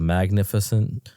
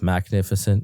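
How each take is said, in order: First: The first syllable is said as mag. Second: The first syllable is said as max. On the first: It is the ordinary adjective. "instead of magnificent" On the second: It is the name of a fragrance business. "Max short for Malcolm, and instead of like a scent, it's like scent like fragrance"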